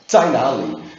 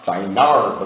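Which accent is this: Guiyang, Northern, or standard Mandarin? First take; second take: standard; Northern. First: It is said in standard Mandarin. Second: It is said in a Northern Mandarin accent.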